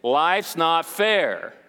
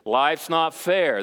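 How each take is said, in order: First: It is said forcefully, with conviction. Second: It is said weakly, without conviction.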